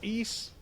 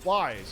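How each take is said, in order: First: The name rhymes with the word geese. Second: The name sounds like the word wise. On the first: The speaker calls it right. "Geese without the G" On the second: The speaker calls it wrong. "I didn't know you pronounce it Wise"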